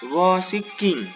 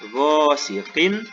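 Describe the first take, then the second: First: The final n becomes a hidden nasal sound. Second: The final n is pronounced clearly. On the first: The speaker calls it wrong. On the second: The speaker calls it right. "dibaca jelas tanwin"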